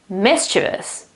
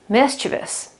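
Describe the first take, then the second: First: The stress falls on the first syllable. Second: The same.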